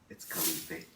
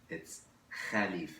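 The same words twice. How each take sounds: First: The name is said with an American pronunciation. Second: The name is said with a Lebanese 'kha' sound.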